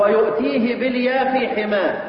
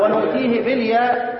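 First: ويؤتيه begun "wa-yu", with a y; ويؤتيه said "wa-yu'tihi"; reading with ya. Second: ونؤتيه begun "wa-nu", with an n; ونؤتيه said "wa-nu'tihi"; reading with nun. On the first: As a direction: sound a y after the waw in ويؤتيه. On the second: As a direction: sound an n after the waw in ونؤتيه. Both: Shown as a demonstration. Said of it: "ممكن تقرأها كده".

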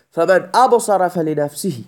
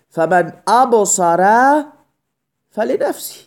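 First: Said in the usual way. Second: Slow recitation. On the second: Shown as a demonstration. Teacher quotes Quran verse slowly.

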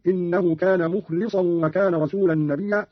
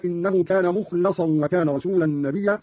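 First: "مخلصا" pronounced mukhlisan; slow recitation, i after the l of "مخلصا"; kasra on lam. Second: Said in the usual way. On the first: Shown as a demonstration. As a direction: say "مخلصا" with li instead of la. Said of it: "قرأ قالون بكسر اللام". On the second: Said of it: "بكسر اللام".

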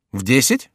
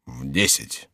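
First: "В десять" with rising tune; "В десять" as a rising question; surprised echo question. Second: Low, soft statement; low falling reply; monk answering. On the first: Chicot echoes it questioningly. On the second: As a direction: drop the answer low and quiet. Monk's flat answer. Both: Acted.

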